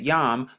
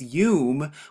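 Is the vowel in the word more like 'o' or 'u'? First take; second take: o; u. First: The vowel sounds like a rounded 'o'. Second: The vowel sounds like an 'u' sound. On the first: This is how others commonly pronounce it. The speaker calls it wrong. "they pronounce it Yom" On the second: This is the pronunciation the speaker holds to be correct. The speaker calls it right. "the correct pronunciation is Yum"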